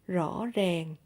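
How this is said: Southern accent, the r sounds like r. "is in Southern accent"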